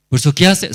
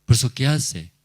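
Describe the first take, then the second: First: Raised, forceful preaching question; loud rhetorical question. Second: Said in the usual way. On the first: Acted. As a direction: hammer the question at the congregation. Preacher voicing the sinner's reasoning.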